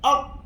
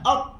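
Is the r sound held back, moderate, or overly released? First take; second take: held back; held back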